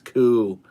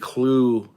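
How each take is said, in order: First: It is said with no L after the K. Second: It is said with an L after the K. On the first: The speaker calls it right. "It's Ku" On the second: The speaker calls it wrong. "I would say it wrong too. I would say Clue"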